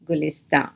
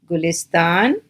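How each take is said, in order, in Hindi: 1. शब्द का अंत अनुनासिक स्वर से होता है। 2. शब्द का अंत पूरे न की आवाज़ से होता है।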